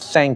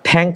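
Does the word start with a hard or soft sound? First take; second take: soft; hard. First: It starts with a soft th sound. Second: It starts with a hard t-like sound. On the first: The speaker calls it right. "নরম হবে" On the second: The speaker calls it wrong. "উচ্চারণটা থ্যাঙ্ক হবে না"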